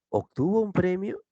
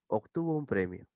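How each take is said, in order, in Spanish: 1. Tiene la entonación cambiada de una pregunta. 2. Tiene la entonación plana de una afirmación. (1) "¿te das cuenta que el tono ha cambiado?" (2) "Es un tono normal"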